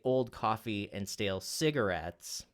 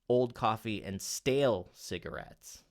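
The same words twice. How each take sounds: First: The word cigarettes is stressed. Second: The word stale is stressed. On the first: The focus is on the idea of the cigarette. "if you accent the cigarettes word" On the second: The focus is on the type of cigarette. "what if you accent the word stale?"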